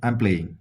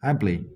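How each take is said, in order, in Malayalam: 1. 'I am' ഒരു സിലബിളായി ചുരുക്കി പറയുന്നു. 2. 'I am' ഒരു സിലബിളായി ചുരുക്കി പറയുന്നു.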